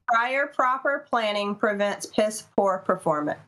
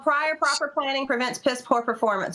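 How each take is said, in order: First: It is said more slowly. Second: It is said at normal speed.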